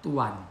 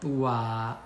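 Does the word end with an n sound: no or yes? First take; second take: yes; no. First: The word ends with an n sound. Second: The word ends in a long vowel, no n. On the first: The speaker calls it wrong. "jangan tuan ya" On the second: The speaker calls it right. "dibacanya tua dua harokat"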